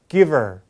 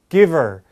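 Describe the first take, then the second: The two takes are said the same way.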